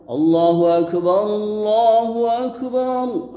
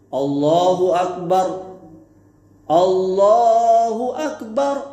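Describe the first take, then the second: First: The two phrases run together without a break. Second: A breath pause separates the two phrases. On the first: The two takbirs form one unit. The speaker calls it right. "yang benar ... disambung" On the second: Each takbir is treated as a separate unit. The speaker calls it wrong. "menyendirikan tiap-tiap takbir, ucapan lafaz takbir dengan mengambil nafas ... itu keliru"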